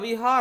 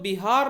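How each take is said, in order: First: The word begins with a v sound. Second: The word begins with a b sound. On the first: The speaker calls it right. "विहार होता" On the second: The speaker calls it wrong. "बिहार नहीं होता"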